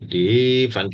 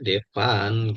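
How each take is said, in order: First: The name is said with a drawn-out first vowel. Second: The name is said plainly with a short vowel. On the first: The speaker calls it wrong. "Jangan Devan gitu ya" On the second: The speaker calls it right. "tetap dibacanya Devan gitu"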